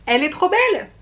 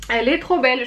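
First: High, louder burst of delight; gushing delight. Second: Said in the usual way. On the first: Real, not acted. Vlogger showing off her new palette to viewers, delighted squeal. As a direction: squeal it like you've fallen in love with it.

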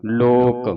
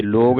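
First: "ਲੋਕ" ended on a crisp unvoiced k; k ending. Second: "ਲੋਕ" ended on a voiced g; wrong g ending. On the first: Teacher modelling for students, "ਲੋਕ" with final k. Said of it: "ਇੱਥੇ ਲੱਗਾ ਕੱਕਾ". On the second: Teacher showing the mistake, "ਲੋਕ" ending in g. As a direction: say "ਲੋਕ" as log, with g at the end. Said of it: "ਲੋਕ ਨਹੀਂ ਕਹਿਣਾ". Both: Shown as a demonstration.

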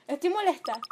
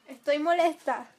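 First: Repeated fed-up "molesta"; real annoyance; angry. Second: Loud, fed-up "molesta" with a falling end; real irritation, louder; angry. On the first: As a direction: say it once more, still irritated. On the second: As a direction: declare your anger firmly. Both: Real, not acted.

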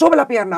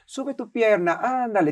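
First: Louder, higher firm command; stern order. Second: Said in the usual way. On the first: Retold or imitated. Strict dance teacher ordering a student, louder. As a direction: demand the leg up sharply. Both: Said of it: "tiene que ser".

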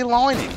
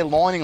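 First: "lining" with a long "eye" in the first syllable; own "lining". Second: "lining" with an "oy" in the first syllable; odd "lining". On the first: Player insisting it's not Australian, "lining" said as "lie-ning". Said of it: "This is how I say lining". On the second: Player defending the odd word, "lining" said like "loyning". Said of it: "Why can't I say lining like that". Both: Shown as a demonstration.

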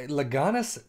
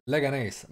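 First: Leganes said wrongly on the first attempt, middle syllable raised; mispronounced name. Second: Fix the name Leganes in passing; corrected pronunciation. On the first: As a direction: stumble into a mistaken reading of Leganes. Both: Real, not acted. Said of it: "my apologies".

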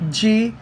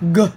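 First: Said in the usual way. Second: G said as a short "guh"; hard G sound. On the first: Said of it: "consonant letter". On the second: Shown as a demonstration. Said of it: "hard and soft sounds of".

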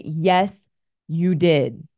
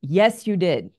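First: Louder, firmer repeat without anger; firmly repeated husband's correction. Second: Firm but calm, no malice; a hint of a firm husband. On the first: Retold or imitated. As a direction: lean into it, strong but kind. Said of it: "strongly and firmly without any malice". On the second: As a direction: state it steadily, without anger. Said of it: "he said it strongly and firmly without any malice".

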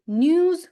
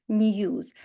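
First: "news" said nooz, with no y glide; regional OO variant. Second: "news" said nyooz, with a y glide; regional YU variant. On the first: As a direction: say "news" with a plain oo. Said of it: "в одних регіонах кажуть news". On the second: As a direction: say "news" with yoo after the n. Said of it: "в других кажуть news". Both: Shown as a demonstration.

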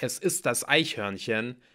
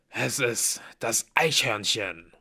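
First: Said in the usual way. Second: Slow, weighty announcement in character; ominous reveal. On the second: A narrator's reading. Blitz reveals the dreaded squirrel, slowly and ominously. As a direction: draw out each word with dread.

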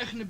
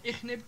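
First: اخنب starting on khn; unvowelled first consonant. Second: Said in the usual way. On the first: Shown as a demonstration. Teacher showing silent first letter, اخنب as khneb. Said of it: "إسكان الحرف الأول". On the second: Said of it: "بدل من اخنب".

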